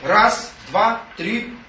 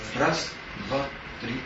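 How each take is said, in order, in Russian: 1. Счёт произносят громче. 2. Счёт произносят очень тихо. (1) "Потом говорит все громче" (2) "Только так, тихонечко"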